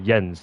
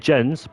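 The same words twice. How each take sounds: First: The name begins with a Y sound. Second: The name begins with a J sound. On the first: It is the Dutch way of saying the name. "the Dutch is like Jens. You say the J as the um, Y" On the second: It is the English way of saying the name. "In English, I'd say Jens"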